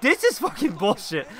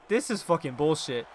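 First: Higher, exasperated protest; indignant complaint. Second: Said in the usual way. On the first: Real, not acted. Player fed up with the match, indignant complaint. Same complaint repeated with more force.

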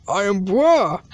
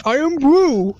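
First: Low "I am bruh" with open vowel; wrong pronunciation. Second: Louder "I am brew" with "oo"; correcting pronunciation. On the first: Learner getting it wrong, low "I am bruh". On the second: Teacher correcting the learner, loud "I am brew". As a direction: push out "brew" loudly. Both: Acted. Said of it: "It's pronounced iron brew".

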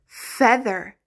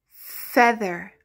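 The two takes are said the same way.

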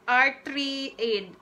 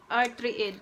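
First: Slow, spelled-out reading; slow careful reading. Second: Said in the usual way. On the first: Shown as a demonstration. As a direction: read the label out slowly. Reading medicine name slowly.

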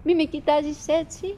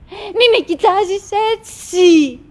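First: Softer, pleading; quiet plea. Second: Slow, higher, louder insistence; insistent plea. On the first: Wife softly begging her husband not to stare. Repeated plea, first soft. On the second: Wife insistently begging her husband not to stare. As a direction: lean hard on the repeat. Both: Acted.

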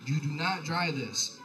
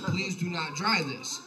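First: "not" pressed out slowly, each word spaced; stress on not. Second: "Please do not dry this" drawn out slowly, leaning on "dry"; slow stern plea. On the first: Rereading his laundry note, slow and stern. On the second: His laundry note to the roommate, slow and pleading. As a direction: plead slowly, pressing each word. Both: Retold or imitated. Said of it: "I said".

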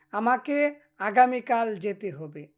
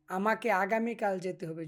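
First: Slow and a little louder, each word clear; slow careful model sentence. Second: Said in the usual way. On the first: Shown as a demonstration. Teacher modelling the sentence for students, slow and clear. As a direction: spell it out slowly for the learners. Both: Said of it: "এভাবে আপনারা চর্চা করবেন।".

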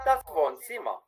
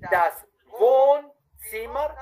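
First: Normal quick speed, falling tune; everyday speed; quick natural take. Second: Wohnzimmer stretched out, high and loud; slow, clear model take. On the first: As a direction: rattle it off the way natives say it. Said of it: "y la otra vez rapidito". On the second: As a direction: lay out every sound slowly for the student. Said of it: "una vez bien despacito, bien claro". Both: Shown as a demonstration.

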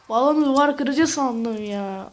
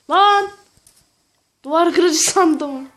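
First: Said in the usual way. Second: Loud, slow shocked outcry; surprised shout. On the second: Real, not acted. Realises mistake, shouts.

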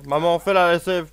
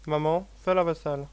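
First: Loud, bossy command to mum; bossy loud order. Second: Said in the usual way. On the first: Retold or imitated. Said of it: "Genre, je fais".

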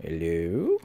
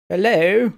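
First: Said in the usual way. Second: Loud, higher call into the dark; a loud hello to an empty room. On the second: Real, not acted. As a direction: call out to whoever is there. Calling out in dark game level.

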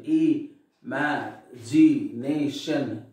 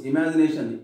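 First: "e, ma, g, nation" said slowly, one syllable at a time; split into syllables. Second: Said in the usual way. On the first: Shown as a demonstration. Teacher dividing imagination for the class, "e, ma, g, nation" in separate syllables. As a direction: break "e, ma, g, nation" into separate beats. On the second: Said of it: "Now syllable division".

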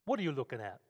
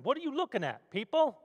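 First: Said in the usual way. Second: [name] in a much higher, hammed-up Brooklyn accent; a tough Brooklyn guy snapping at the crowd in a Brooklyn accent. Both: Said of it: "In his best Brooklyn accent".

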